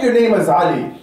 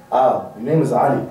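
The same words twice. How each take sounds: First: Firm, proud declaration of a name. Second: Low, hesitant mock answer; timid introduction. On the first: Shown as a demonstration. Preacher shows a brother how to introduce himself, proudly. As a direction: state the name with pride. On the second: Preacher mimics shy brother giving his name, timid. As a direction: act out an unsure, sheepish reply. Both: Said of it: "And say it with pride".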